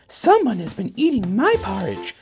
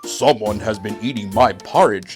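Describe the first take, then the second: First: It is said in a middle-sized voice. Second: It is said in a great big voice.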